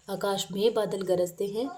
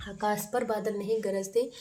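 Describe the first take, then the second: First: में stressed as the right word, rising on में; teacher stresses में in the corrected sentence. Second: पर marked as the wrong word, rising on पर; teacher flags पर in the wrong sentence; stress on पर. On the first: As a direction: lean on में to give the correction. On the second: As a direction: lean on पर to show it is wrong. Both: Shown as a demonstration.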